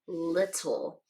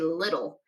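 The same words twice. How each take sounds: First: The middle consonants are a crisp T sound. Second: The middle consonants sound like a soft D. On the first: The speaker calls it wrong. "We don't usually pronounce it like that" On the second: The speaker calls it right. "we say little. And so these two T's kind of sound like D"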